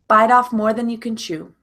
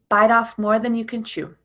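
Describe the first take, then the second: The two takes are said the same way.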